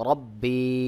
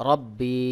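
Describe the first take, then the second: The two takes are said the same way.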